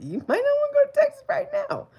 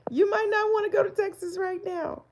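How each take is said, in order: First: Very high, loud singsong warning; high playful warning; high mock warning. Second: High, slightly calmer singsong warning; high playful repeat; high teasing repeat. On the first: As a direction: squeal it out like a teasing auntie. Teasing warning to a viewer. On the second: Acted. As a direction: tease it again, still up high.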